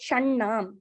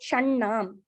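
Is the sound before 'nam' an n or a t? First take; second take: n; n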